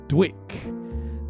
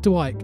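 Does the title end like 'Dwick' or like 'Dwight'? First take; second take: Dwick; Dwight. First: The word has a short vowel and ends in k. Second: The word has a long vowel and ends in t. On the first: The speaker calls it right. "he says that's pronounced Dwick" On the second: The speaker calls it wrong. "Not Dwight, as I've been pronouncing it"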